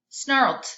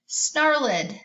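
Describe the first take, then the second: First: The correct d ending on snarled; snarled with a d sound. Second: Snarled with an extra ed syllable, snarl-id; trying the ed ending on Snarled. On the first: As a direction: blend snarled into one syllable ending on d. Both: Shown as a demonstration. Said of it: "E D says ed, d, and t".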